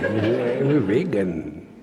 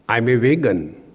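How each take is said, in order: First: It is said with a showy, proud flourish. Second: It is said in a plain, ordinary way.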